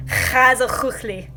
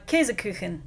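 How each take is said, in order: First: Käsekuchli with a harsh throaty Swiss ch on both k sounds; Käsekuchli in Swiss German, every ch scraped in the throat; Swiss German word. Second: Käsekuchen, north German style; northern German word. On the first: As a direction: rasp Käsekuchli from the back of the throat like a Swiss speaker. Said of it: "um, for Switzerland". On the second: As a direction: say Käsekuchen the northern German way, KAY-zeh-koo-khen. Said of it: "for the northern, um, German". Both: Shown as a demonstration.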